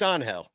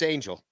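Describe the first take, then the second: First: The name is said the Spanish way. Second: The name is said the English way.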